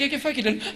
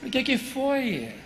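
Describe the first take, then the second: First: Higher, tender asking with a laugh; gentle question. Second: Slow, drawn-out asking. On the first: Husband finds his crying wife and gently asks what happened. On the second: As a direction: linger on every word, coaxing. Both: Retold or imitated.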